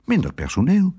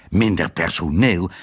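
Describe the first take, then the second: First: High, rising matter-of-fact proposal; wife's suggestion. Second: "Minder personeel?" repeated low and falling in disbelief; incredulous echo. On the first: Wife to husband, a high casual suggestion. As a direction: offer it lightly as the obvious fix. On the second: Husband to wife, a low disbelieving echo. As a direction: throw her words back at her. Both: A narrator's reading.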